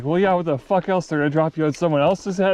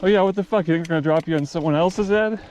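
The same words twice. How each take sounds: First: Much higher, louder sarcastic retort; mock the kid's question, fed up; exasperated Billy Bob. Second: Much higher, louder sarcastic retort; exasperated Billy Bob. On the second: Retold or imitated. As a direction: scoff at the silly question. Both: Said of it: "he's like".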